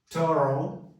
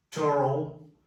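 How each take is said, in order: Both takes have the same delivery.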